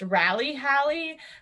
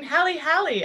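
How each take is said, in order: First: The first word begins with an English R sound. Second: The first word begins with an H sound. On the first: "it's in English" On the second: "in Portuguese, the R at the beginning of the word is pronounced like an H"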